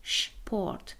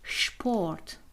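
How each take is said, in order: First: The word starts with an sh sound. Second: The word starts with an sh sound.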